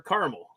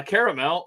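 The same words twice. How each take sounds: First: Caramel as CAR-mul; caramel in two syllables. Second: Caramel as CARE-a-mel; caramel in three syllables. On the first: Offering co-hosts the second option, caramel in two syllables. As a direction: say caramel squeezed down to "carml". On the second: Offering co-hosts the first option, caramel in three syllables. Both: Shown as a demonstration. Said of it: "word that's interchangeable for me".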